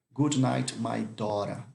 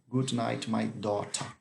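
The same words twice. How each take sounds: First: Daughter as Dora with a tapped r; daughter with R sound. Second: Daughter as Dota with a clear t; daughter with T sound. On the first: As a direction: say daughter like Dora, flapped r in the middle. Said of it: "Ele tem um som ou de R ou de T". (daughter pronunciado como Dora, com som de R) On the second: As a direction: say daughter like Dota, crisp t in the middle. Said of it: "tem gente que fala Dota". (daughter pronunciado como Dota, com som de T) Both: Shown as a demonstration.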